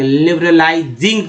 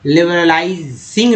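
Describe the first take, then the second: First: लिबरलाइजिंग with voiced "z", ending in ज़िंग; correct z sound. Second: लिबरलाइजिंग said with "s", ending in सिंग; wrong s sound. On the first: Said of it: "यहाँ पर ज पढ़ा गया". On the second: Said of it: "अब एस नहीं पढ़ेंगे". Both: Shown as a demonstration.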